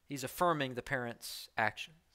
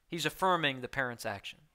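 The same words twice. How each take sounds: The two takes are said the same way.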